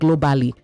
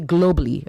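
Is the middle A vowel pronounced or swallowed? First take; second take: pronounced; swallowed. First: The A vowel in the middle is fully pronounced. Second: The A vowel in the middle is swallowed. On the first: The speaker calls it wrong. "not globally" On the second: The speaker calls it right. "You say globally"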